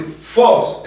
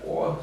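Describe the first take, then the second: First: FOS loud and raised; strong acute tone. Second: Fos said as a soft, sinking "oh"; lowered circumflex tone. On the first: Teacher showing what not to say, fos loud and high. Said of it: "en vez de decir fos". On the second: Teacher showing the old circumflex sound, voice dropped low. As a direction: let the vowel of fos drop down quietly. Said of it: "era más para abajo". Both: Shown as a demonstration.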